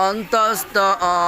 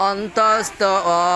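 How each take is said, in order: The two takes are said the same way.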